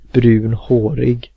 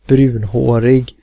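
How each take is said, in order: First: It is said as two separate words. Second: It is said as one compound word. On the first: The speaker calls it wrong. "and not brunhårig" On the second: The speaker calls it right. "you compliment them for being brunhårig"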